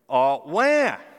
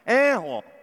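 First: The pitch rises from low to high. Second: The pitch falls from high to low. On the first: "cry from a low intonation to a high intonation" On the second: "cry from a high intonation to a low intonation"

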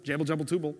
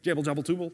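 Both takes have the same delivery.

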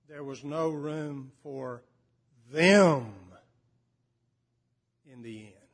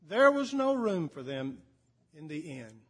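First: The word 'them' is strongly emphasized. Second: The sentence is read plainly without special emphasis. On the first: The listeners identify with being outsiders. "he would read it like this" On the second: It is a minor detail of the story. "you can read that as a sort of a detail and quickly move on"

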